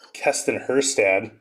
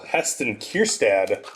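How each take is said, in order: First: The first name begins with a K sound. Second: The first name begins with an H sound. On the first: The speaker calls it wrong. "I keep thinking it's uh" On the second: The speaker calls it right. "I actually finally said that right"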